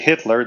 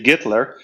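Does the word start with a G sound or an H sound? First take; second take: H sound; G sound. First: The word begins with an H sound. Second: The word begins with a G sound. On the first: "They don't say Hitler" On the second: "They say Gitler"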